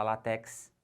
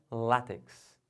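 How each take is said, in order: First: Látex stressed on the last syllable, TEX; wrong stress. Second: Látex stressed on the first syllable, LÁ; deliberate front-stressed látex; correct stress. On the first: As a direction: say látex as la-TÉX. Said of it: "não pode falar". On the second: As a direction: say látex as LÁ-tex. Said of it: "O certo é". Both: Shown as a demonstration.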